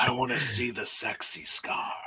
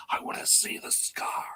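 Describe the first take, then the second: First: A touch of a mock seductive purr; lightly sultry joke voice. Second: Breathless high whisper of longing; hushed eager whisper; secret whisper. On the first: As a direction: tease it like a bad pickup line. Repeating the scar line, jokingly. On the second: Retold or imitated. Whispered nerdy wish about scar.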